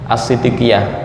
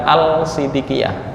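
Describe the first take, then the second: First: The l is merged into the following s. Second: The l is pronounced before the s. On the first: The speaker calls it right. "As-siddiqiyah bukan al-siddiqiyah" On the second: The speaker calls it wrong.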